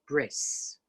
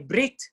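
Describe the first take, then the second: First: The word ends with an s sound. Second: The word ends with a t sound. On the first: "the Taf without a dot and it's pronounced like a S" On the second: This is the modern Hebrew pronunciation. "But it's really Brit"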